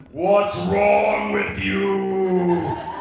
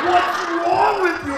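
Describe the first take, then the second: First: Very slow, loud, drawn-out moan; ghostly figure. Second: High, loud, stretched-out scolding shout; stepfather's angry yell. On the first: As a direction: stretch every word like a looming ghost. Dark figure speaks like a ghost. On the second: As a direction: yell it in exasperated outrage. Enraged stepfather, woken by yelling. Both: Retold or imitated.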